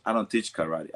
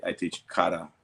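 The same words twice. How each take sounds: First: Karate said the American way, kuh-RAH-tee; the Westernised "karate", rhyming with "party". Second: Karate said the Japanese way, KAH-rah-teh; clipped Japanese "karate" with the syllables kept short and even. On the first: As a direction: karate as English speakers say it, with a flat second syllable. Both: Retold or imitated.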